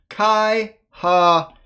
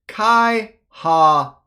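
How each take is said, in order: The two takes are said the same way.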